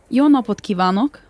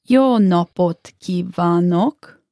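First: It is said at normal speed. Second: It is said slowly.

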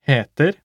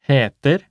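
No difference in how they are said.

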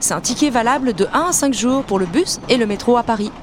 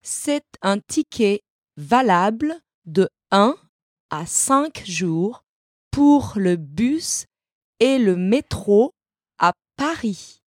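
First: It is said at normal speed. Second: It is said slowly.

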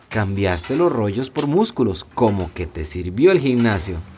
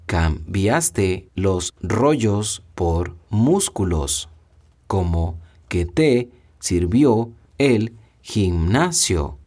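First: It is said at normal conversational speed. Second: It is said slowly and deliberately.

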